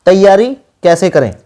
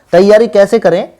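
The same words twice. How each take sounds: The two takes are said the same way.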